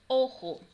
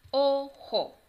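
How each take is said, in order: First: Said in the usual way. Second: Put-on teacher segmenting "Ojo" for children; syllable by syllable. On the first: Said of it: "Ahora la palabra es". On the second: Shown as a demonstration. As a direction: break "Ojo" into separate syllables. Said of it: "vamos a separar cada una".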